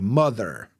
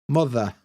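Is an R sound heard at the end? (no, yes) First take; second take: yes; no. First: An R sound is pronounced at the end. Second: No R sound is pronounced at the end. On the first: "we don't say ... mother" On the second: "We don't pronounce the R"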